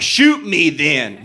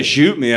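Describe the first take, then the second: First: Slow, dragged-out dare; drunk defiance. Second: Said in the usual way. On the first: Retold or imitated. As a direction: slowly taunt him to shoot you. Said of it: "I was really drunk". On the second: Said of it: "if you say".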